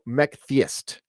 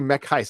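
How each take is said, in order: First: The t sound before the second word is pronounced. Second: The t sound before the second word is dropped. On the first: The speaker calls it right. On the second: The speaker calls it wrong.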